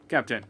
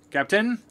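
First: Said in the usual way. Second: High rising call of captain. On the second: Real, not acted. Player calling out to the ship's captain, high rising call. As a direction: sing out the name to get attention.

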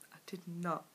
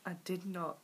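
Both takes have the same delivery.

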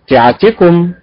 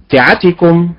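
First: تعتكم with the correct stress placement. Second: تعتكم with the incorrect stress placement; wrong stress. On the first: Teacher demonstrating the correct stress to students. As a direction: demo the right way to say تعتكم. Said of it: "فتنطق بالأداء المستقيم". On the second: Teacher showing students the wrong stress. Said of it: "وتنطق بالأداء غير المستقيم". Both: Shown as a demonstration.

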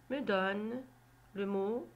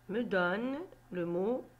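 The two takes are said the same way.

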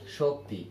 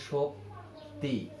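First: Said in the usual way. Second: শক্তি split slowly into two parts, shok, ti; শক্তি drawn out softly, syllable by syllable; syllable-by-syllable demonstration. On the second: Shown as a demonstration. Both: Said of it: "আমরা যখন এটার উচ্চারণ লিখব".

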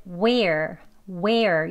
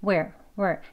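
First: "where" drawn out in two beats; long, slow "where" with a gliding second beat; two-beat sound. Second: "where" as one short syllable; clipped one-sound "where", no glide; short single sound. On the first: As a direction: stretch "where" slowly into we-er. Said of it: "이렇게 두 리듬으로 발음이 됐다면요". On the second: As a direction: say "where" quickly, in a single beat. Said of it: "한 소리로 짧게 나는 발음처럼". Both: Shown as a demonstration.

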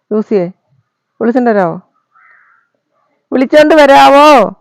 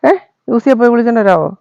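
First: Louder, drawn-out call to the dog to fetch Juicy; louder slow call. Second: Said in the usual way. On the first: Acted. Repeats request, calling out.

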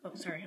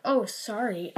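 First: Soft, low-key slip of apology; offhand apology. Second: Mock replay of own apology; mimicked apology. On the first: Real, not acted. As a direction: drop a quick apology under your breath. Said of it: "I don't know why I said sorry". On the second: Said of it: "I'm like".

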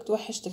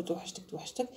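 First: Said in the usual way. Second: Soft whispered توحشتك; whispered mock i miss you. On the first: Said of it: "خليه هو يعيط لك يقول لك". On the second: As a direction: breathe توحشتك soft and clingy. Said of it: "تقعدي تعيطي تقولي له".

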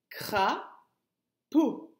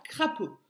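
First: "Crapaud" in two beats with a long gap; teacher sounding out "Crapaud" by syllable; split into syllables. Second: Said in the usual way. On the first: Shown as a demonstration. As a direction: break "Crapaud" clearly after the first syllable. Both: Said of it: "c'est la première".

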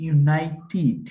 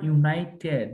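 First: ইউনাইটেড ending in "tid", short i; careful model of ইউনাইটেড, stressed on "nai"; correct pronunciation. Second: ইউনাইটেড ending in an open "ted"; common wrong pronunciation. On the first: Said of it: "So এখন এটা হচ্ছে ইউনাইটেড". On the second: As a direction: say ইউনাইটেড with a wide e in the last syllable. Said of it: "এখানে অনেকে আবার ইউনাইটেড বলে ফেলেন". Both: Shown as a demonstration.

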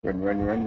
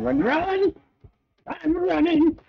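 First: Said in the usual way. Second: High panicked squeal while fleeing; being chased. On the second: Real, not acted. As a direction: squeal it, running for your life. Chased by enemies in game.

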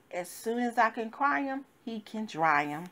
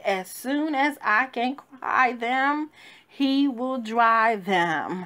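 First: Said in the usual way. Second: Slow preacher's emphasis on as soon as I can cry them; emphatic repeat. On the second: Shown as a demonstration. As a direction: drive the line home slowly. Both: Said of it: "I said".

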